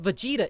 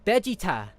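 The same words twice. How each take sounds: First: The name is said with an English pronunciation. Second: The name is said with a Japanese pronunciation. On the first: It follows the translated form of the name. The speaker calls it right. "It's supposed to be just Vegeta" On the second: It follows the original-language form of the name. The speaker calls it wrong. "that's how the Japanese pronounce it"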